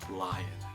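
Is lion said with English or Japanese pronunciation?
English. It is said with English sounds. The speaker calls it right. "but lion"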